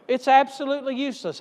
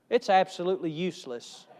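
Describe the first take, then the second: First: "absolutely" pushed higher and faster, fed up; exasperated emphasis. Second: Said in the usual way. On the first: Shown as a demonstration. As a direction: fire off "absolutely useless" in exasperation. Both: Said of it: "repeated with more force".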